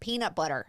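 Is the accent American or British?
American. It is said in an American accent. The speaker calls it right. "have to say peanut butter, and then you'll like it"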